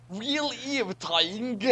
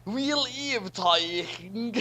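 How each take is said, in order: Both takes have the same delivery.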